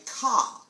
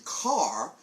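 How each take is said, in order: First: Boston ka, r dropped, a long open ah; Boston accent. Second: Said in the usual way. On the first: Shown as a demonstration. Preacher demos the Boston accent, ka without the r. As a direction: say ka like a New Englander, no r at the end. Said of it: "instead of saying car, you say". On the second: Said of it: "instead of saying car".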